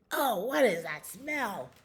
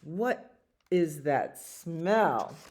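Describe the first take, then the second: First: Higher put-on voice, swooping down; creature in the cave. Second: Slow, spaced-out question; somebody noticing a stink. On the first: Hidden cave creature smells skunk, high disgusted voice. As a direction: exclaim it in disgust at the stink. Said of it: "something that was in the cave said". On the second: Acted. Somebody in the story smells skunk, slow puzzled question. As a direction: draw out each word, falling at the end. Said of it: "And somebody says".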